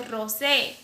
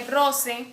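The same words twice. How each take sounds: First: "roce" with the final E held long. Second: "roce" with a short final E. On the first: Teacher contrasting syllable length, long final E in "roce". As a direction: draw out the last E of "roce". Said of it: "la otra sí tiene duración en la E". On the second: Teacher giving a Greek example, short final E in "roce". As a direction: keep the E at the end of "roce" brief. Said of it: "no tiene una duración en la E". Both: Shown as a demonstration.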